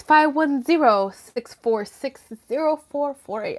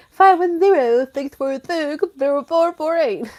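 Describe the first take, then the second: First: Said in the usual way. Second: Loud, higher put-on announcer voice; mock hotline call-out. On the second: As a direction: ham up the number for imagined callers. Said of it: "gonna be here all fucking night being like".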